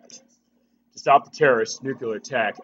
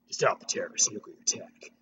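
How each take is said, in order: First: It is spoken in the speaker's ordinary voice. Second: It is spoken in a put-on character voice.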